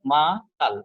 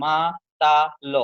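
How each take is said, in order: First: মাতাল in two beats, মা then তাল; correct two-syllable split. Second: মাতাল slowly in three pieces, মা, তা, লo with a vowel after ল; slow wrong split of মাতাল as ma, ta, lo; wrongly split syllables. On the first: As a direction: break মাতাল only after মা, closing on "tal". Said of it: "মাতালের মধ্যে কয়টা আছে". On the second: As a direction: break মাতাল into three drawn-out beats, ending "lo". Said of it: "এভাবে হয় না". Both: Shown as a demonstration.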